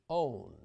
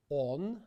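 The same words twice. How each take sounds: First: English own with a gliding ou diphthong. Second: Pure Russian o, no glide; on said with a pure o, no diphthong. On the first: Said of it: "versus the English own". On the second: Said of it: "Let's compare the Russian". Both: Shown as a demonstration.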